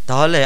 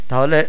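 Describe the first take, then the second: The two takes are said the same way.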